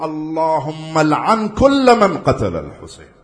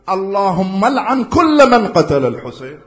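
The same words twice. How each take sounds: First: Loud, slow and deliberate recitation of the curse; slow solemn curse. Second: Higher, louder, slow recitation of the curse; stronger repeated curse. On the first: Preacher reciting the curse to the crowd, slow and loud. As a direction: spell it out word by word. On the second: Preacher repeating the curse to the crowd, higher and louder. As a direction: raise it up and lean in hard. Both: Acted.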